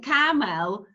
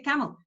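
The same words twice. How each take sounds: First: The second vowel is a full, open vowel. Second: The second vowel is a weak schwa. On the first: The speaker calls it wrong. "You don't say camel. No" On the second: The speaker calls it right. "You say camel"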